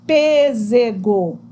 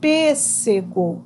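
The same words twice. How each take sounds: First: The middle consonant is a buzzing z sound. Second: The middle consonant is a hissing s sound. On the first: The speaker calls it wrong. "não tem o som de S, tem o som de Z. Aí ficaria pêssego. E não é assim que a gente fala" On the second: The speaker calls it right. "O nome dessa fruta é pêssego"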